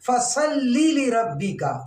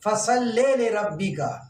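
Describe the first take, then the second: First: The first word ends with an 'ee' vowel. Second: The first word ends with an 'eh' vowel. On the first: The speaker calls it right. "लाम के नीचे फसल्ली पढ़ना है" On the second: The speaker calls it wrong. "वो फसल्ली को फसल्ले पढ़ते हैं"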